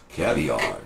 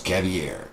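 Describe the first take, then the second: First: Said in the usual way. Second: "caviar" drawn out, ending like "air"; altered pronunciation. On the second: Acted. Salesman renaming the delicacy, "caviar" ending in a drawn-out "air". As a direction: say "caviar" as cavi-air, slowly. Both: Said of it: "You should change it to caviar".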